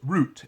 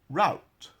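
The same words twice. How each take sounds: First: It is said in a British accent. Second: It is said in an American accent.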